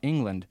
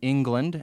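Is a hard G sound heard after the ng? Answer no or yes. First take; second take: no; yes. First: No hard G sound follows the ng sound. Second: A hard G sound follows the ng sound. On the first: "others pronounce it England" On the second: "Some people pronounce the G in England"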